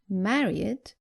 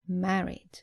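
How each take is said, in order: First: The ending is an extra syllable sounding like id. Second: The ending adds no extra syllable to the word. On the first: The speaker calls it wrong. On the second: The speaker calls it right.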